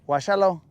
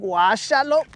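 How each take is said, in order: First: It is said in a disapproving, mocking tone. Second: It is said in an approving, impressed tone. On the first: The person dislikes what you are doing. "if somebody doesn't like what you're doing" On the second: The person likes what you are doing. "somebody's vibing to my to the way I was getting down"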